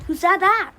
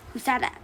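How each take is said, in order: First: Louder, higher alarmed question; startled. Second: Said in the usual way. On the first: Acted. Lodger hears a second voice among the trees, startled. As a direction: demand to know who spoke, startled.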